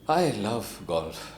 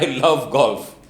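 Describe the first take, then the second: First: It is said in a sad way. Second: It is said in a happy way.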